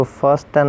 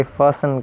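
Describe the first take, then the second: First: "فاسٹن" with the T sounded after S; wrong pronunciation. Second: "فاسن" with no T after the S; silent T. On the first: Teacher showing what we won't say, mispronounced with T sounded. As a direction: put a hard T in "فاسٹن". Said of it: "اس کو فاسٹن نہیں کہیں گے". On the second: Teacher giving the correct word, said with silent T. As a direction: slide from S straight into N in "فاسن". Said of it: "باقی فاسن کہیں گے". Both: Shown as a demonstration.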